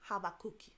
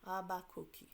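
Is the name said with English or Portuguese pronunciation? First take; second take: Portuguese; Portuguese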